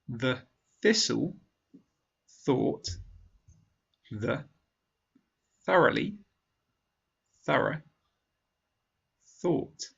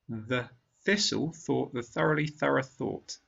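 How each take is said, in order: First: The sentence is spoken slowly. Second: The sentence is spoken at normal speed. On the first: "once slowly" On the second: "a second time at normal speed"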